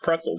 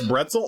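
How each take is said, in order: First: The word begins with a voiceless P sound. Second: The word begins with a voiced B sound. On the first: The speaker calls it right. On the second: The speaker calls it wrong.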